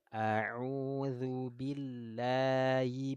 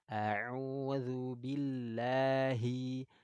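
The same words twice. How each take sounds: First: The h sound in billahi is faint. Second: The h sound in billahi is clear. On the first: The speaker calls it wrong. "nggak boleh kita bacanya gini" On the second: The speaker calls it right. "jadi jelas di situ"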